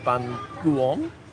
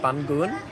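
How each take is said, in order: First: Northern pronunciation with every vowel fully sounded. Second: Southern pronunciation with a reduced, simpler vowel. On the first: "in Hanoi it's more Bun Guon" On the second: "in Saigon, that's how you would say it"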